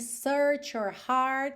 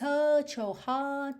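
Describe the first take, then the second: First: The R sounds are strong and fully pronounced. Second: The R sounds are dropped entirely. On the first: "mas a gente também não tem" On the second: "como a gente teria no inglês mais britânico"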